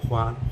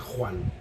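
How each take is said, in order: First: The first sound is soft and light. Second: The first sound is harsh and raspy. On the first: This is how it is said in South America. "In South America, they say a little bit soft, softer" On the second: This is how it is said in Spain. "We say Juan"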